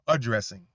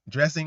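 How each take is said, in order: First: The opening vowel is clearly said at the start. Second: The opening vowel is left off the word. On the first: The speaker calls it right. "I thought it was addressing" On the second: The speaker calls it wrong. "where she says dressing"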